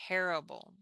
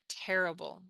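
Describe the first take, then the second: Both takes have the same delivery.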